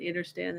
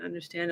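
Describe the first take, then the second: First: Understand said as "inner-stand"; innerstand. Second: Said in the usual way. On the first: Shown as a demonstration. While explaining the word to listeners, understand voiced as inner-stand. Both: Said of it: "I love the word understand and understand".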